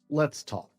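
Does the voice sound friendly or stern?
stern. It is said in a heavy, stern tone. The listener is in trouble. "you're in trouble"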